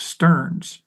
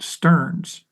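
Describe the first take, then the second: First: The vowel sounds like the one in 'learns'. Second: The same.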